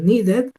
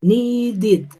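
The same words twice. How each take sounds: First: NEEDED as "nee-det", E in last syllable; wrong ED ending. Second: NEEDED drawn out as "nee-did"; ID ending. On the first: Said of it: "Yo no puedo decir". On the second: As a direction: model "needed" with an I before the D. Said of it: "tendría que decir". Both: Shown as a demonstration.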